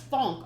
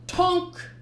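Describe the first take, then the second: First: "Thonk." dull and level, with a th; kick noise. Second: "Tonk!" higher and louder, a bright clunk; kick noise. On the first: Reader correcting the kick sound to "Thonk.". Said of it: "Oh, it's thonk". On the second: Reader trying a kick sound effect, "Tonk!". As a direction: call out "Tonk!" as the kick lands. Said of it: "I don't like that sound for a kick". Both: Shown as a demonstration.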